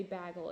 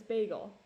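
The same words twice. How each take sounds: First: "bagel" said as BAG-ul; disliked bagel pronunciation. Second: Said in the usual way. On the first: Shown as a demonstration. Quoting the way people say it that she hates, "bagel" as BAG-ul. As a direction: give "bagel" the short a of bag. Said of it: "the way people say bagel". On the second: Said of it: "It's bagel".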